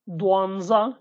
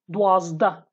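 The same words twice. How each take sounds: First: Dwanza with n before za; Slemani pronunciation. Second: Dwazda with zd and no n; Hawleri pronunciation. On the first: Teacher reads twelve in Slemani, nz in Dwanza. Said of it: "Twelve, Dwanza in Slemani". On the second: Teacher reads twelve in Hawleri, zd in Dwazda. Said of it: "Dwazda in Hawleri". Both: Shown as a demonstration.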